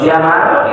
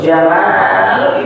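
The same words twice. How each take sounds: First: The vowel after the m is short. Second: The vowel after the m is long. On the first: It means something other than beauty. "Kalau dibacanya pendek, jamal itu artinya orang" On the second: It means beauty. "Jamal itu memnya panjang ya dibacanya"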